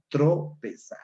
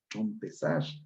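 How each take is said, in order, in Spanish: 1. No hay sonido m antes de la p. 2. Se añade un sonido m antes de la p. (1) "la palabra correcta es tropezar" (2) "aquí le aumenta la M"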